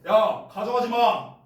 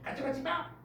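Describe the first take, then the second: First: It is said in a strong, forceful way. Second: It is said in a cute, soft way.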